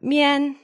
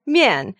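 First: Mian held high without the fall; wrong tone. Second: Mian falling sharply from high; fourth tone. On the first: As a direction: keep mian up, stretched level. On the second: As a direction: start Mian high and drop it. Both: Shown as a demonstration. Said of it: "It's not mian".

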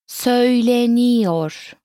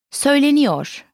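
First: Söyleniyor stretched syllable by syllable; slow teaching model. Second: Said in the usual way. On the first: Shown as a demonstration. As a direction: draw out Söyleniyor slowly and evenly. Teacher models word slowly, then normally.

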